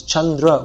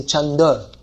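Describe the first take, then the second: First: Chandra with dr and final vowel sounded; full Chandra. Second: Chanda with the r dropped; colloquial Chanda. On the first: Teacher showing an exception, Chandra with its ending kept. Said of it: "Chandra would have to be". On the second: Teacher showing changed spoken form, Chanda without r. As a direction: leave out the r, Chanda. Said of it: "they say Chanda". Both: Shown as a demonstration.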